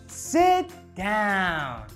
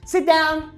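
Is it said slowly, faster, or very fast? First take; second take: slowly; very fast. First: It is said very slowly. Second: It is said very fast.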